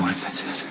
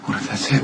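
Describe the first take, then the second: First: Soft whispered dread. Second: Said in the usual way. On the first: Acted. Nicholas whispering his realization. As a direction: breathe the thought.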